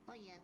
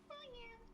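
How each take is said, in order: First: It is said in a low-pitched put-on voice. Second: It is said in a high-pitched put-on voice. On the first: "Baby Luigi is more of a lower pitch" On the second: "Baby Mario's more higher pitched"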